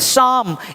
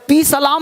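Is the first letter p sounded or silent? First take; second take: silent; sounded. First: The p is silent at the start. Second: The p is sounded at the start. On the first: The speaker calls it right. "ये पी नहीं बोलना है" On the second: The speaker calls it wrong. "पी सलाम नहीं बोलना है"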